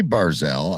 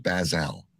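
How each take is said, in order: First: "Barzell" said with an R, as bar-ZELL; "Barzell" with a long AR, then ELL; quoted wrong version. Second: "Basil" said as baz-ELL, no R; "Basil" rhyming with gazelle, stated lower; own pronunciation shown. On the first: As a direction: sound the R in "Barzell". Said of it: "I didn't say Barzell". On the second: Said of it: "I said Basil". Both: Shown as a demonstration.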